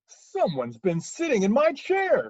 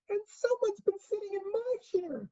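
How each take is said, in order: First: It is said in a great, huge voice. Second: It is said in a wee, small voice.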